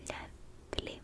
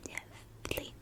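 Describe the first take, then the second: No difference in how they are said.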